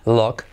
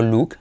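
First: "look" with the vowel opened toward O, "lok"; correct open vowel. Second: "look" with a tight Spanish U, "luk"; wrong vowel. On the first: Teacher correcting the mistake, "look" with open O-like vowel. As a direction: say "look" as "lok", not "luk". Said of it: "semiclave U como look". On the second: Teacher showing the mistake, "look" with Spanish U. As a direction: say "look" as "luuk", the way to avoid. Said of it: "no look". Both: Shown as a demonstration.

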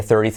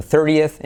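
First: "thirtieth" squashed into two syllables, thir-tith; pronunciación incorrecta. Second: "thirtieth" in three syllables, thir-ti-eth; pronunciación correcta. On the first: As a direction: say "thirtieth" wrongly, without the extra vowel. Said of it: "que no sería thirtieth". («thirtieth» mal dicho, en dos sílabas) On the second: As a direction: give "thirtieth" its separate final eth. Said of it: "sino thirtieth". («thirtieth» en tres sílabas, con eth final) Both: Shown as a demonstration.

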